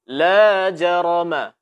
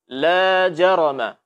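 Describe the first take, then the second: No difference in how they are said.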